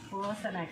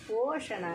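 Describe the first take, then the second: First: The word has a plain s and dental n. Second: The word has a retroflex sh and retroflex n. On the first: The speaker calls it wrong. "పోసన కాదు" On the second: The speaker calls it right. "పోషణ అనేది ఇలా రాయాలన్నమాట"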